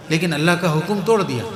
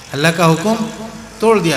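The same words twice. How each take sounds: First: Said in the usual way. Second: Louder, with حکم rising and توڑ punched; emphatic repeat. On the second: Shown as a demonstration. Preacher to congregation, driving the point home, stressing توڑ.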